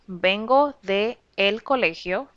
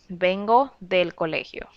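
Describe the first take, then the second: First: The preposition and article are said separately. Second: The preposition and article merge into one word. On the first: The speaker calls it wrong. "which is not used" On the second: The speaker calls it right. "you would make a contraction there"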